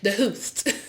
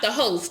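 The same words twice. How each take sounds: First: The word host is said with an unusual accent. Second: The word host is said in a plain way. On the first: "Trina pronounces it the host" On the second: "not the host"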